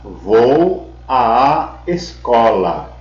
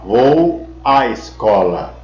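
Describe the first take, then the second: First: The vowel before escola is a doubled long a. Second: The vowel before escola is a single short a. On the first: The preposition and the article are joined. The speaker calls it right. "Você deve falar vou à escola" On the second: Only the article is used. The speaker calls it wrong. "Você não vai falar vou à escola, porque aí seria um artigo"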